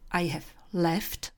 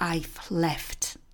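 First: The word have is said in full. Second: The word have is contracted to 've. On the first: "to I have left u předpřítomného času" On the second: "můžete stáhnout na I've left"

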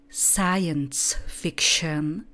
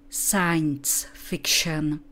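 The two takes are said the same way.

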